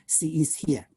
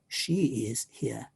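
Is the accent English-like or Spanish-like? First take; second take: Spanish-like; English-like. First: It is said with Spanish-style mouth movements. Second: It is said with English-style mouth movements. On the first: The speaker calls it wrong. "because then it becomes" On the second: The speaker calls it right. "instead of"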